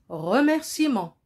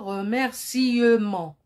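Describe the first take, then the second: First: The middle E is silent and dropped. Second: The middle E is pronounced as a vowel. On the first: The speaker calls it right. "On dit remerciement" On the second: The speaker calls it wrong. "on ne dit pas remerciement. Non, ça c'est faux"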